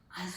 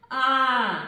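First: The vowel is said more quietly. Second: The vowel is said very loudly. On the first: "тихіше" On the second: "Голосно"

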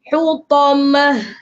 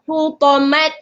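First: The word ends with a soft h sound. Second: The word ends with a t sound. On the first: The speaker calls it right. "tukarkan menjadi huruf ha" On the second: The speaker calls it wrong. "jangan huta, hutamat. Ha, salah"

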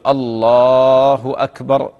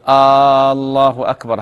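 First: The opening vowel is short and plain. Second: The opening vowel is drawn out like a question. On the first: It states that God is greatest. The speaker calls it right. "هو يقول الله أكبر هكذا" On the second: It sounds like asking whether God is greatest. The speaker calls it wrong. "قدم همزة الاستفهام كأنه يستفهم"

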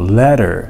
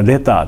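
First: The middle consonant sounds like a D. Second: It is said with a Japanese-style pronunciation. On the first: This is how Americans say it today. "D 発音するんですよ" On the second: This is how Japanese speakers say it. "日本人はレターっていうじゃないですか"

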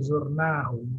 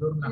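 First: The middle vowel is held long. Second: The middle vowel is kept short. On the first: The speaker calls it right. "Dikasih panjang itu" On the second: The speaker calls it wrong.

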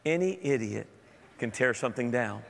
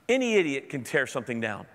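First: It is said in a soft, polite tone. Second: It is said in a blunt, harsh tone. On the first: "Let me say that politely" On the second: "Did I say that aloud again?"

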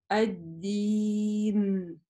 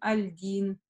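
First: The L is dropped and the D is doubled. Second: An L is heard before a single D. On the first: The speaker calls it right. "Лям дала свое место букве даль" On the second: The speaker calls it wrong. "мы не говорим аль-дин"

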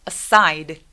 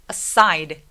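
Both takes have the same delivery.

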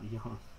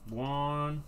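First: The name begins with a 'y' sound. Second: The name begins with a 'w' sound. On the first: The speaker calls it wrong. "Not Yan" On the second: The speaker calls it right. "Juan. Not Yan"

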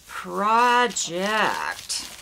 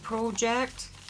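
First: It is said in the speaker's usual American accent. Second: It is said imitating a Canadian accent.

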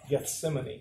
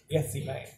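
First: It is said the standard biblical way. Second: It is said the local Arkansas way. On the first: This is how outsiders reading it would say it. "Straight out of the Bible. Spelled the same" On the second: This is how people from the place say it. "if you're from around there, they don't pronounce it Gethsemane"

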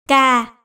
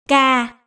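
First: The syllable is said on a low falling tone. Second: The same.

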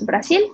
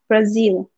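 First: The middle consonant is a plain hissing s. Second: The middle consonant is a buzzing z. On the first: "En español la Z la pronunciamos Brasil" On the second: "en inglés la Z es como un mosquito, como un zumbido"

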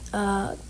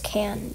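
First: The vowel is long and open, like 'con'. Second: The vowel is short and flat, like 'can'. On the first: The speaker calls it right. "So that's how you pronounce it" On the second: The speaker calls it wrong. "I thought it was Can"

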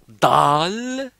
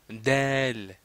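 First: The vowel sounds like an open 'a'. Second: The vowel sounds like an 'e'. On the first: The speaker calls it wrong. "ne prononcez pas dal" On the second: The speaker calls it right. "il faut dire del, comme ça"

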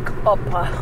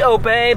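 First: The word is said the Nigerian way, with an ending. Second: The word is said plainly, without an added ending. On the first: "when Nigerians say it, it's more like Opa" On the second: "It's really Ope"

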